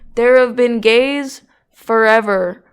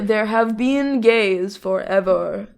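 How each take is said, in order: First: It is said loudly, close to shouting. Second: It is said at a normal speaking volume.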